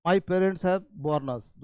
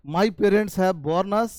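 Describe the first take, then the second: First: My parents have born us, same words and same sound, slow and clear; slow teaching read again. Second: My parents have born us, each word spaced out slowly; slow teaching read. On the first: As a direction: repeat it slowly, same pronunciation. (धीमा दोहराव, वही उच्चारण) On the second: (धीमे-धीमे पढ़ाते हुए) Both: Shown as a demonstration. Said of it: "उच्चारण same है".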